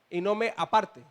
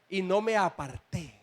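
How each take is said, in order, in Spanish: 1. El acento está en la sílaba del medio de aparte. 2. El acento está en la última sílaba de aparté. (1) "Si yo no le pongo el acento a la tilde" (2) "No es aparte, aparté"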